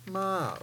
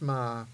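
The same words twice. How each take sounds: First: The pitch drops from high to low. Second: The pitch stays low. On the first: "the third tone is ma, or the drop tone" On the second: "the low tone is ma"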